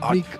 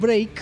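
First: The vowel is a short i sound. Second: The vowel is a long ei sound. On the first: It means brick. The speaker calls it wrong. "tal y como lo pronuncias, el ladrillo" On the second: It means a break or rupture. The speaker calls it right. "Pero si dices break"

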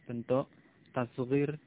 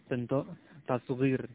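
No difference in how they are said.

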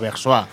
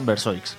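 First: The name is pronounced the French way. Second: The name is pronounced the Spanish way. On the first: This is how the Swiss town is named. "está tomado de una ciudad suiza, ¿no? Que se diría Versois" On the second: This is how the band prefers to be called. "lo hemos adaptado al castellano y lo preferimos llamar Versoix"

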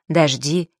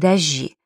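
First: It is said in the modern standard way. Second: It is said in the old Moscow way. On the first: "сегодня предпочтительно" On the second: "это не манерное произношение, а старомосковское"

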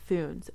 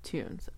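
First: The name begins with a 'th' sound. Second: The name begins with a plain 't' sound. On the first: The speaker calls it wrong. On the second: The speaker calls it right.

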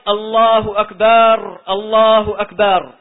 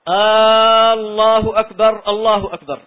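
First: The ba syllable of the second word is lengthened. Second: The opening vowel of the first word is lengthened. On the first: It turns the word into one meaning a drum. "يعني يمد إيش؟ الباء" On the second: It turns the phrase into a question. "مد الهمزة"

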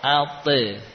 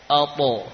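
First: The echo vowel sounds thin and light, like e. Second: The echo vowel sounds thick and raised, like o. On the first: The speaker calls it wrong. "bukan ate" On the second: The speaker calls it right. "yakni agak tebal"

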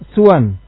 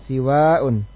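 First: The s is followed by a short u. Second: The s is followed by a long i. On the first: "suwan bi dhammi sin wal qasr" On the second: "siwa'un bi kasri sin dengan kasra sin wal mad dan mad"

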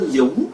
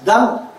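First: The name is said with Vietnamese pronunciation and tone. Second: The name is said like an American English word. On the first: "tên Dũng" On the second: "người Mỹ nó đọc là gì?"

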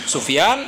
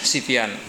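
First: The first syllable has the vowel u. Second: The first syllable has the vowel i. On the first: "Bitathlif ini bisa dibaca dengan tiga harakat" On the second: "dengan Sifyan"

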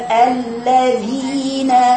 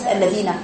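First: The long vowel is held for its full length. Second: The long vowel is cut short. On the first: The speaker calls it right. "يقول الذين" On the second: The speaker calls it wrong. "وليس الذين"

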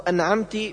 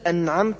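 First: The word ends in an i vowel. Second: The word ends in a u vowel. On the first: "بكسر التاء" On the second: "بضم التاء"

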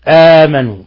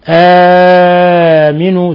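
First: The long vowel is held briefly, about two counts. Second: The long vowel is held moderately, about four counts. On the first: "القصر" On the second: "توسط"

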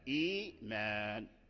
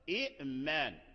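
First: The first syllable has a long vowel. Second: A glottal stop closes the first syllable. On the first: This is how the word is actually read. "أبدلت الهمزة هذه وصارت ياء، فرجعت صورة الهمزة حرف مد، فقلنا إيمان" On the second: This is the word's underlying original form. "إيمان أصله إئمان"

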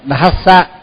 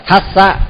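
First: The word begins with a d sound. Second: The word begins with a t sound. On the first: The speaker calls it right. "phải đọc đúng là phải đọc Dhassa" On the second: The speaker calls it wrong. "có khi mình lại đọc là Thassa. Thassa thì cũng thì là mất chữ D"

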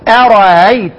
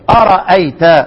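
First: The second hamza is softened toward a vowel. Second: The second hamza is pronounced fully. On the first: "بتمامه" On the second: "بإثبات الهمزة"

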